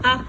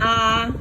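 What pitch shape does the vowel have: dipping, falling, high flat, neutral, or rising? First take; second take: neutral; high flat. First: The vowel is quick and short, unmarked. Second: The pitch stays high and level. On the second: "first tone again"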